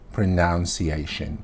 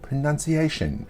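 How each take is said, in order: First: The second syllable sounds like noun. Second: The second syllable sounds like nun. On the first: The speaker calls it wrong. "I hear a lot of people say pronunciation" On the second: The speaker calls it right.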